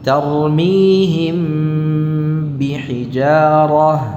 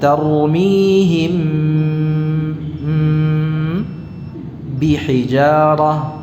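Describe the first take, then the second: First: The words run together without any pause. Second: A held hum and pause split the words. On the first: "tidak ada jeda di situ" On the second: "tapi tidak ada jeda di situ, ya. Ini cuma contohnya saja"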